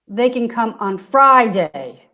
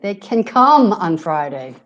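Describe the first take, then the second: First: The stress is on the word Friday. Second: The stress is on the words can come. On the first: Friday works, but no other day does. "So not on any other day" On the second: The focus is on the action of coming. "here can come being stressed"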